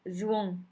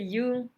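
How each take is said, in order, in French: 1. Le nom commence par un son semblable à z. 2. Le nom commence par un son semblable à y. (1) "c'est la prononciation dans le nord" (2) "dans le sud, c'est Yung"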